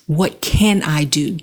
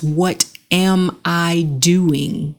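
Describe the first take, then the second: First: Said in the usual way. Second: "What am I doing?" slow, weight on "am"; slow stressed question. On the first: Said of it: "The question is not". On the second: Shown as a demonstration. Speaker naming the right question, slow with stress on am. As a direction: draw out "What am I doing?" and press "am". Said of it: "The question is".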